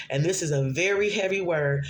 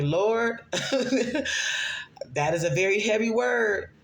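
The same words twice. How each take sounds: First: Said in the usual way. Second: High, slow, laughing plea; laughing disbelief. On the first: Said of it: "I sat with the Lord". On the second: Retold or imitated. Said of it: "And I'm like".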